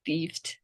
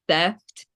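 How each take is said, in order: First: The vowel is long, like 'ee'. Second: The vowel is short, like 'eh'. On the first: The speaker calls it wrong. "thiefed is wrong" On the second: The speaker calls it right. "you're gonna want to say theft"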